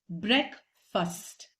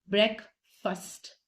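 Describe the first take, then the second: Both takes have the same delivery.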